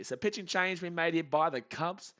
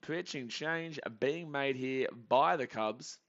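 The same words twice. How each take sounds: First: Said in the usual way. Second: Measured repeat, words spaced out; slow, deliberate announcement. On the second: Real, not acted. Commentator repeating the pitching change, slow announcement.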